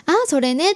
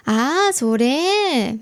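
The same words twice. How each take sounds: First: Said in the usual way. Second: 「あ、それ」 said very slowly with the final それ drawn out long; stretched ending. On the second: Shown as a demonstration. Her Korean-sounding habit, final syllable stretched. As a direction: drag out the end of 「あ、それ」 in a Korean-like lilt. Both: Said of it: "最後の部分を長く伸ばして言う".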